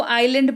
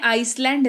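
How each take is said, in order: First: आइलैंड said eye-land with a silent s; आइलैंड with the s left silent; correct island pronunciation. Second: आइसलैंड said ice-land with the s sounded; आइसलैंड read with a full s, as spelled; wrong spelling pronunciation. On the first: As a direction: say आइलैंड as eye-lund, no s sound. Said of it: "लेकिन इसको आइलैंड पढ़ते हैं". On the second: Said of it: "आइसलैंड नहीं पढ़ते हैं". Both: Shown as a demonstration.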